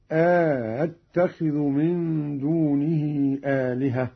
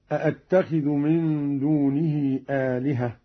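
First: أأتخذ with the second hamza softened and an alif inserted between the hamzas, slow chant; eased second hamza. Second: Said in the usual way. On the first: Shown as a demonstration. Reciter demonstrating Qalun's reading for students, slow eased hamza in أأتخذ. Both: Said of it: "قرأ قالون بتسهيل الهمزة الثانية مع إدخال ألف هكذا".

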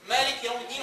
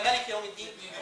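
First: مالك with a long first aa, "maaliki"; long vowel in مالك. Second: مالك with a short first a, "maliki"; short vowel in مالك. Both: Shown as a demonstration. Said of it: "هي بتتقري مالك ولا مالك".

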